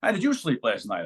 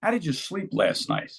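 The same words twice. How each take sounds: First: Asking the stranger back, weight on "you"; stress on you. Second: Slow question leaning on "did"; a stranger's slow, curious question with "did" stressed. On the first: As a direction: question turned back with "you" stressed, lower. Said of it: "I asked him". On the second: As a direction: ask slowly, punching the word "did". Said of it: "this one guy hits me with this". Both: Retold or imitated.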